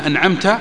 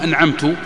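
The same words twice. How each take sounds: First: The final t carries an a vowel. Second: The final t carries a u vowel. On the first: The blessing is attributed to God. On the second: The speaker attributes the blessing to himself.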